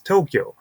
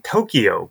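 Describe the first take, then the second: First: The word is said with two syllables. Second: The word is said with three syllables. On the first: The speaker calls it right. "but it's only two syllables. It's Tokyo" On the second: The speaker calls it wrong. "we say in America, we say Tokyo"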